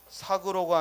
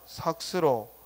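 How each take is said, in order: First: No s sound follows the k. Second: An s sound follows the k. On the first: The speaker calls it wrong. "아니라" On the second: The speaker calls it right.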